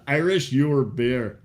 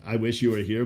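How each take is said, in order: First: Slow punning "Irish, your beer"; Irish, your beer said slow as a pun. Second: Said in the usual way. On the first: Shown as a demonstration. Explaining the drunk Irishman's pun, slow "Irish, your beer". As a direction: draw out "Irish, your beer" slowly so it sounds like "I wish you were here". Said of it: "but he said".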